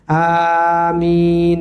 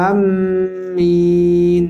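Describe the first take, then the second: First: The m sound is single and short. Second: The m sound is doubled and held. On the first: "Itu yang biasa kita baca" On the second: "Tasdid pula. Sambung"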